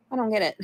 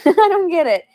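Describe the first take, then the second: First: Said in the usual way. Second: Much higher, louder laughing confusion; baffled laughing outburst. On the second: Real, not acted. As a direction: laugh through the words. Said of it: "laughing confusion".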